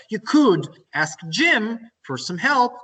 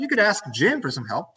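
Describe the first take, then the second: First: Slow, with "could" drawn out and lifted; stress on COULD. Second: Said in the usual way. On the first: Shown as a demonstration. Teacher models a polite suggestion, stressing "could". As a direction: stretch "could" high, then space out the rest. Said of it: "Could makes it softer". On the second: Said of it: "you're suggesting how something can be solved".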